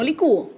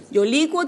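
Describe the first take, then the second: First: Licúo with the stress on the ú, split into four syllables; stressed ending, li-CÚ-o. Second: Licuo said as LI-cuo, two syllables with a gliding u; stress on LI, one glide. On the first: Teacher to students, showing the wrong form licúo. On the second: Teacher to students, modelling the correct licuo. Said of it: "la conjugación correcta de estos verbos era yo licuo". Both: Shown as a demonstration.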